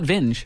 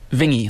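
First: The name ends without an 'ee' sound. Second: The name ends with an 'ee' sound, like stingy. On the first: The speaker calls it wrong. "Not Vinge" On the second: The speaker calls it right. "like stingy"

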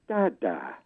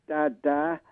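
First: The pitch falls on the word. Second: The pitch stays level on the word. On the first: It is a statement. "with a falling tone" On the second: It is a command. "with a kind of beseeching, level tone"

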